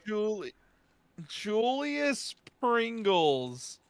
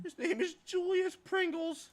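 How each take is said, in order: First: Very slow, high drawn out; stunned. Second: High, slow disbelieving; incredulous. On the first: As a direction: savour the name in disbelief. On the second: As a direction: spell out the absurd name slowly. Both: Real, not acted. Incredulous repeating the name.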